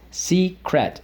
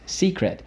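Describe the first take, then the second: First: "secret" as two full beats, SEE, CRET; syllable by syllable. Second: Said in the usual way. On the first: Shown as a demonstration. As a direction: separate both syllables of "secret", second one unreduced. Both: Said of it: "So let's go".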